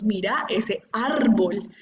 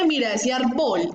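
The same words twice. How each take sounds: First: "árbol" said slowly as ÁR-bol, first syllable stretched; correct first-syllable stress. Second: "árbol" said as arBOL, last syllable punched; wrong final stress. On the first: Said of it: "Nosotros decimos". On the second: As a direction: put the weight wrongly on the end of "árbol". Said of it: "Nosotros no decimos". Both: Shown as a demonstration.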